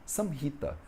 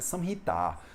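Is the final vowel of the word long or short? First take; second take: short; long. First: The word ends with a short final vowel. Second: The word ends with a long final vowel. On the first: The speaker calls it right. "a gente fala samhita" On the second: The speaker calls it wrong. "ela termina com um A longo"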